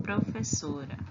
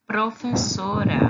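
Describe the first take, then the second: First: "professora" repeated softer in Spanish. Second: Profesora said loud and clear in Spanish; Spanish pronunciation. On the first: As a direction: echo the Spanish "professora" quietly. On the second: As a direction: model the Spanish word "professora" for the class. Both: Shown as a demonstration. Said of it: "dizemos assim, ó".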